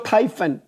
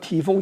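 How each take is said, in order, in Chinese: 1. 第一个音节听起来像 'tie'。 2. 第一个音节听起来像 'tee'。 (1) "所以这个字要念泰" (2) "其实这个发音是错误的"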